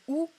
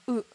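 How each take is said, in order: First: The vowel is a rounded back ou sound. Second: The vowel sits between e and ou, unrounded. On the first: "mais si vous faites OU, ça peut être accepté" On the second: "On est entre un e et un ou"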